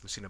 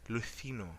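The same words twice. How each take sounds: First: The C is said like the C in cereal. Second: The C is said the way Spain says it. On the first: "immediately we think it's Lucino" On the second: "in Spain, actually, it's pronounced as Lucino"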